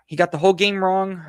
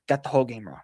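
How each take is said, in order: First: "He got the whole game wrong" repeated louder and higher, punching "whole"; emphatic repeat. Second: Said in the usual way. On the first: Real, not acted. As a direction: hit "whole" hard, raised and louder. Repeats verdict, second time louder.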